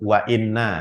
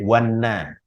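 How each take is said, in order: First: The glottal stop before inna is kept. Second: The glottal stop is dropped and the words merge. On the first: The speaker calls it right. "Walaupun dikasih wawu tetap wa inna" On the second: The speaker calls it wrong. "Tidak boleh wanna"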